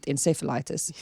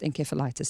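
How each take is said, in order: First: The word is said the American way. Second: The word is said the British way. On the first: "In the U S, they, they pronounce it encephalitis" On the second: "it is pronounced encephalitis in the U K only"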